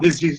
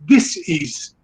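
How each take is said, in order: First: The word is said as one smooth unit. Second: The word is split into two separate parts. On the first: It names an illness. The speaker calls it wrong. "we are pronouncing the word disease in the wrong way" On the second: It means the opposite of ease. The speaker calls it right. "it is dis-ease"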